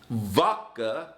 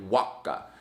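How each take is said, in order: First: The word begins with a V sound. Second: The word begins with a W sound. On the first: The speaker calls it right. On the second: The speaker calls it wrong.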